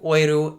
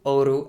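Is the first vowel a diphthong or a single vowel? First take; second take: diphthong; single vowel. First: The first vowel is an oi diphthong. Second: The first vowel is a plain o. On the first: "instances of oi replacing o" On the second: "instead of"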